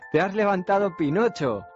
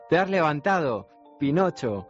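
First: It runs on with no pause before Pinocho. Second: There is a short pause before Pinocho. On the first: The speaker calls it wrong. "Enseguida se dio cuenta de que faltaba una coma" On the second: The speaker calls it right. "y volvió a decirlo"

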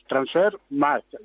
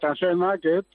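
First: The last word sounds like German 'Markt'. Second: The last word sounds like English 'market'. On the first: The speaker calls it right. "pero es Transfer Market. Es un poco alemán" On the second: The speaker calls it wrong. "que lo decís mucho"

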